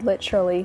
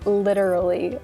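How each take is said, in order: First: It is said in a non-American accent. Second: It is said in an American accent.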